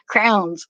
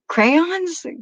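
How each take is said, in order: First: The word has one syllable, sounding like 'crowns'. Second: The word has two syllables, 'cray-ons'. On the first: This is how some people in Delco say it. "some of the people in Delco they say crowns" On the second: This is the speaker's own way of saying it. "you mean crayons?"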